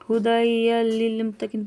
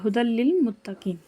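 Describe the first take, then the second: First: An extra sound is kept before the l. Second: The sound merges straight into the l. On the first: The speaker calls it wrong. "पढ़ेंगे तो गलत हो जाएगा" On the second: The speaker calls it right. "डायरेक्ट उसको लाम में मिलाकर पढ़ेंगे"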